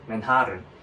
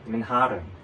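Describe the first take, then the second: No difference in how they are said.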